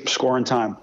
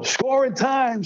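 First: Said in the usual way. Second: Put-on "Score in time" in a much higher New York accent; Marty Glickman. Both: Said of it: "I could still hear it in his New York accent".

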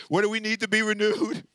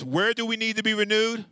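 First: RENEWED held out at the end; said with conviction. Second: Said in the usual way. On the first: Shown as a demonstration. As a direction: ask it like you mean it, stretching "renewed". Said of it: "Say it with your chest". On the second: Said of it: "Say it like you mean it".

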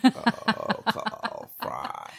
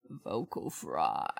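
First: Vocal fry. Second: Very low, slow creaky "vocal fry". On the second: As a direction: drag the words down into a creak. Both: Shown as a demonstration.

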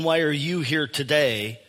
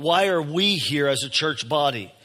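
First: "you" picked out as the contrasting word; stress on YOU. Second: "we" leaned on against "you"; stress on WE. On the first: Preacher setting aside the individual question, stress on "you". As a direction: point the question at "you" alone. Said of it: "I'm not asking". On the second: Preacher turning the question to the whole church body, stress on "we". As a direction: hit "we" to mean everyone together. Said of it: "I wanted to emphasize the word". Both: Shown as a demonstration.

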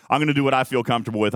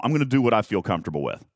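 First: Quick, laughing restatement; laughing repeat. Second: Said in the usual way. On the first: Shown as a demonstration. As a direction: toss it off with a laugh.

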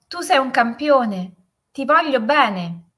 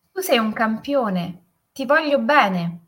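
First: Higher, louder call, slowing at the end; echoed shout. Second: Raised, drawn-out call; affectionate shout. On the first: Mountain voice answers the father, echoed loving shout. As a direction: ring it back like an echo. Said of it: "E la voce rispose". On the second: Father demonstrates the echo to his son, loving shout. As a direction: shout the praise out to the mountains. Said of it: "E urlò". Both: A narrator's reading.

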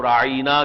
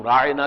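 First: راعِینَا with the middle i drawn long; راعِینَا, a long ee after the ain; twisted long vowel. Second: راعِنَا with a short i after the ain; راعِنَا, middle i unstretched; proper short vowel. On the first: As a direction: stretch the ee in راعِینَا. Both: Shown as a demonstration. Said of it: "زبان کو توڑ مروڑ کر بولنا".

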